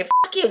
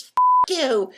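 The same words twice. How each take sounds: First: "Fuck you" yelled much higher and louder with a rising end; "Fuck you" shouted back high, rising on "you"; mock curse back. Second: "Fuck you" yelled much higher and louder with a falling end; "Fuck you" hurled high and loud, dropping at the end; mock curse. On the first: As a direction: throw "Fuck you" back, ending up as a challenge. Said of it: "then he would say". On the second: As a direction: spit out "Fuck you" as a shouted insult ending down. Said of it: "what he wanted me to say was".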